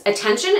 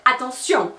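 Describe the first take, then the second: First: Attention said the English way, stress on the middle syllable TEN; English "attention" with the -shun ending; English pronunciation. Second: Attention said the French way, stress on the last syllable; French "attention" ending in a nasal -sjon; French pronunciation. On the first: Explaining French stress, she says the English word. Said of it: "in English it's attention". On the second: Teaching French stress, she gives the French word. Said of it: "'cause you're accentuating that last syllable". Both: Shown as a demonstration.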